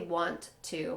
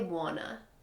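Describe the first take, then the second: First: Both words are pronounced fully and separately. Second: The words are blended into one reduced word. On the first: The speaker calls it wrong. "we're not going to say want to" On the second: The speaker calls it right. "we're going to say wanna"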